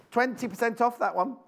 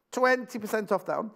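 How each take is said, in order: Both takes have the same delivery.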